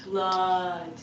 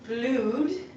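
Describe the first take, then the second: First: The vowel is a short uh sound. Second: The vowel is a long oo sound. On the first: The speaker calls it right. "it's actually uh, uh" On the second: The speaker calls it wrong. "So it's not blued"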